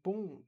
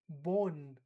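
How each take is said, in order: First: It ends in a nasal vowel with no N. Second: A clear N consonant is sounded at the end. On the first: The speaker calls it right. "I'm not pronouncing the N, right? I would say bon" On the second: The speaker calls it wrong. "So I don't actually say bon"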